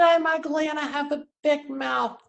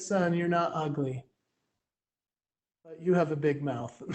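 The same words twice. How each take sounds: First: High mock-pouty child voice; hammed-up kid complaint, pitched high throughout; upset little kid. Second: Soft, low imitation of a mom; lightly voiced mother, quieter and lower; matter-of-fact mom. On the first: Son complaining to his mom after school, high imitated child voice. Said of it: "I said". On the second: Mom answering her upset son, soft low deadpan voice. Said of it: "And she said".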